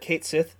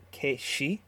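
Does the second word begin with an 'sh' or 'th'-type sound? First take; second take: th; sh. First: The second word is said like 'sith'. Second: The second word is said like 'shee'. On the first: The speaker calls it wrong. "Kate Sith is actually pronounced" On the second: The speaker calls it right. "actually pronounced Kate-she"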